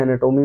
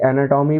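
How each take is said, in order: First: एनाटॉमी said "ae-na-TOH-mee", round long o; alternative pronunciation. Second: एनाटॉमी said "ae-na-TAW-mee", open aw in the third syllable; alternative pronunciation. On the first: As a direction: give एनाटॉमी a closed toh sound. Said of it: "एनाटॉमी भी बोल सकते हैं". (एनाटॉमी में 'टोमी', गोल 'ओ') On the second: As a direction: give एनाटॉमी an open tom sound. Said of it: "इसे एनाटॉमी भी बोल सकते हैं". (एनाटॉमी में खुला 'टॉ') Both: Shown as a demonstration.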